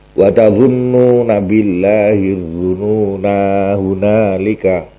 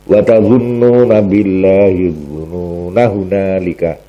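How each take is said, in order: First: The vowel before hunalika is held long. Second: The vowel before hunalika is kept short. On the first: "Umpama diwasolke yo tetep panjang" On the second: "nek diwasolke alife dibuang"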